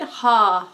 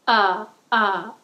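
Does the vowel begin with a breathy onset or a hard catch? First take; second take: breathy onset; hard catch. First: The vowel starts with a breathy h sound. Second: The vowel starts with a hard glottal catch. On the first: "too huffy with an H on the front of it" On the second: "too glottally. So that's ah. That attack of it"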